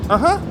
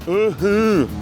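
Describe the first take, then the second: First: The sound is without nasal quality. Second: The sound is strongly nasal. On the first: The speaker calls it right. "Tente eliminar o aspecto nasal" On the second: The speaker calls it wrong. "Esses sons nasais que vocês usam não soam muito bem aqui"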